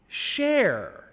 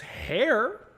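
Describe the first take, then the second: First: The name begins with an sh sound. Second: The name begins with an h sound. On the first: "for the Portuguese Spanish, it also could be translated as share" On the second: "It could be said as hair"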